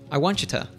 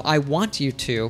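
First: T and Y merge into ch; 'to' becomes 'ta'. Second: Each word is said fully with a clear T.

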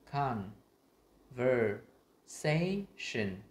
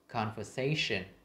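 First: The syllables are said separately with breaks. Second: The syllables flow together as one word. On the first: "Mình đọc thành tách các âm là" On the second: "mình ghép lại thành"

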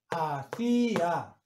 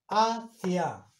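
First: The final two vowels form two separate syllables. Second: The final two vowels share one syllable.

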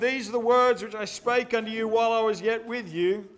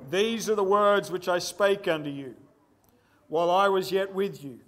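First: It is read quickly, in a rush. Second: It is read slowly and deliberately. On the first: The speaker calls it wrong. "I've been rushing" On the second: The speaker calls it right. "let's read this again and read it slowly"

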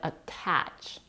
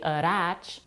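First: The T is a clear, full T sound. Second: The T is a quick flap like R. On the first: The speaker calls it right. "but attach" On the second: The speaker calls it wrong. "We don't say attach"

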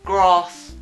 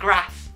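First: The vowel is a long A. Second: The vowel is a short A.

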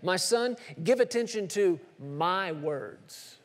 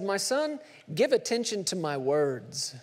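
First: The word 'my' is strongly emphasized. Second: No word is given special emphasis.

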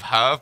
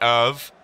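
First: The name is said the English way. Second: The name is said the French way. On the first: "I'm not French, so I'm going to pronounce it Herve" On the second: "In French, it'll probably be Herve"

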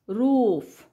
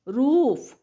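First: The vowel is long and drawn out. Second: The vowel is short and clipped. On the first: The speaker calls it right. "दीर्घ उच्चार" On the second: The speaker calls it wrong. "नाही"

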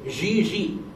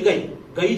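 First: The name begins with a soft J sound. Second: The name begins with a hard G sound. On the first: The speaker calls it right. "That's the pronunciation in French" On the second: The speaker calls it wrong. "Some people said"

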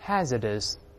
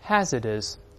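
No difference in how they are said.

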